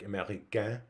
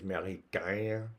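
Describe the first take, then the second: First: It is said with a Parisian French accent. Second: It is said with a Québécois French accent.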